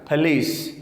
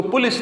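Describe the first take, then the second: First: پولیس as "puh-lees"; weak first vowel, long ee in پولیس; correct police. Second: پولیس as "pu-lis"; u in first syllable of پولیس, short ending; mispronounced police. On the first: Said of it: "اس کو پولیس نہیں کہنا". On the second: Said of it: "پولیس نہیں کہنا". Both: Shown as a demonstration.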